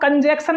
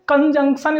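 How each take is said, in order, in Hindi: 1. दूसरे अक्षर में 'cat' जैसा 'a' है। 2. दूसरे अक्षर में 'cup' जैसा 'u' है। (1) "इसको हम कंजैक्शन नहीं बोलते" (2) "कंजंक्शन इसका सही उच्चारण है"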